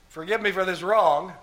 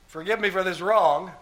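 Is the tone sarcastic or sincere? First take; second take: sarcastic; sarcastic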